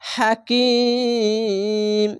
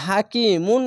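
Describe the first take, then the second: First: The word ends on a consonant, vowel stretched. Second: The word ends with an -un ending. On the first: The speaker calls it right. "হাকিম, তিন আলিফ টেনে পড়বেন" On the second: The speaker calls it wrong. "হাকিমুন না বলে"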